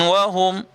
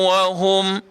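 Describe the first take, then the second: No difference in how they are said.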